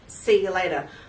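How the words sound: It is said in a broad Australian accent.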